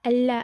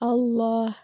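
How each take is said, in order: First: The L is light and thin. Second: The L is heavy, with a full mouth. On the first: The speaker calls it wrong. "அல்லா அல்லா அப்படின்னு ஓதக்கூடாது" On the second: The speaker calls it right. "ஹெவியா அல்லாஹ் அப்படின்னு ஓதணும்"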